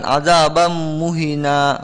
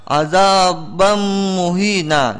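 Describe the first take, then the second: First: Azabam muhina with a short 'hi'; too short. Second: Azabam muhina with long hummed m and long 'hii'; full-length reading. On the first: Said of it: "kurang panjang". (azabam muhina, 'hi' kurang panjang) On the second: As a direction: stretch azabam muhina fully. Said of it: "jadi harus dibaca muhina". (azabam muhina dibaca panjang) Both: Shown as a demonstration.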